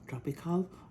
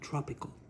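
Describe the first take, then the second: First: It is said with a Spanish-style pronunciation. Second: It is said with an English pronunciation. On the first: "I don't know how they pronounce it" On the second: "But in English, it would be tropical"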